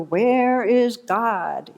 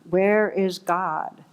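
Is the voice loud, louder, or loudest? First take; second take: loudest; louder. First: It is said with the voice raised most. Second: It is said sterner and somewhat louder.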